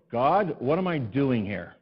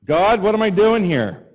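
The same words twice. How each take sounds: First: Slow, drawn-out sigh to God; weary plea. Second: Loud, high, slow cry to heaven; exasperated cry. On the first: Pastor sighing to God after the shower goes cold. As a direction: let the cold water defeat you. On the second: Pastor loudly crying out to God in mock despair. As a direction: throw the question up at God. Exasperated prayer after tiny tank. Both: Retold or imitated.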